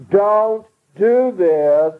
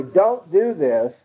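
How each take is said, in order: First: Much slower, higher and louder "Don't do this"; repeated order from mom or dad, pressed hard; emphatic second warning. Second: Slow, firm first warning from a parent; plain first "Don't do this" from mom or dad; parent's first warning. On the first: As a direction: stretch "do" out, the parent now means it. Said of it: "the second time". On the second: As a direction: say it once, steady and measured. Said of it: "when mom and dad say". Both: Retold or imitated.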